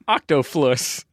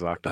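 First: The middle consonant is an f sound. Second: The middle consonant is a p sound. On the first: A small child says it this way. "he no longer says octoflus" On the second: The child has learned the standard form. "Now he says octopus"

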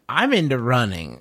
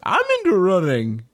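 First: It is said in the speaker's normal voice. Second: It is said in a put-on character voice.

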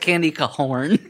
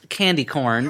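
First: Corn is stretched into two syllables, ca-horn. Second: Corn is said as one plain syllable. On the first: "but I pronounce it candy cahorn. So it sounds like horn is in there" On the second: "It's candy corn"

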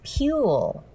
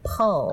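First: The syllable is said like 'pew'. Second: The syllable is said like 'pull'. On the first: The speaker calls it wrong. "People sometimes mispronounce the first syllable of this prize as Pule" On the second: The speaker calls it right. "but it's really Pull"

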